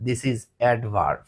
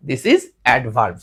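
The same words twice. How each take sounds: First: Very slow, lower and softer; teacher declaring the rule slowly; slow confident declare. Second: Very slow and lower; teacher repeating the rule slowly; slow confident declare. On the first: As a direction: state it slowly with certainty. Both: Shown as a demonstration. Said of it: "চোখ বন্ধ করে বলে দিব".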